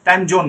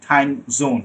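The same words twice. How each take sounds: First: জোন with a hard j, "time jone"; wrong j for z. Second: জোন with a buzzing z, "time zone"; correct z sound. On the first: Teacher mimicking the mistake, j-sound "time jone". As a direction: say জোন starting like "joke". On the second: Teacher modelling for students, z-sound "time zone". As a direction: say জোন starting like "zoo". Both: Shown as a demonstration. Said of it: "time জোন না".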